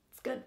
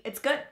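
First: Quiet. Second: Said in the usual way. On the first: Real, not acted.

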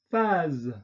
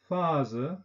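First: 'phase.' said the French way, faz with a released voiced z; French 'phase.' with no schwa. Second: 'Phase' said the German way, with a final schwa, fazə; German 'Phase' with a trailing schwa; German-style. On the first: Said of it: "französischen Aussprache mit Detente". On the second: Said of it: "deutsche Aussprache ... Schwarlaut". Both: Shown as a demonstration.

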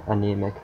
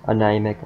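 First: Said in the usual way. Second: Anemic read as "a-NIGH-mic" with a long i; misread anemic. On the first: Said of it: "anemic (corrected take)". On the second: Shown as a demonstration. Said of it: "anemic (self-correction)".

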